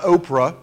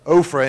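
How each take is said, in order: First: Oprah said like the TV host's name, no f sound; Oprah, the familiar celebrity name; wrong name. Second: Ophrah said OH-fruh with a clear f; Ophrah, stressing the f in OH-fruh; correct place name. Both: Shown as a demonstration. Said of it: "Okay, not Oprah".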